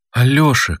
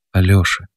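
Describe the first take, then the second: First: A meek, slightly higher call of his name. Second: Gently calling her husband's name; kind voice. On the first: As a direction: plead with him gently. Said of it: "кротко обратилась". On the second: Mother gently calls her husband by name, kindly. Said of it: "добрым голосом сказала мать". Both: A narrator's reading.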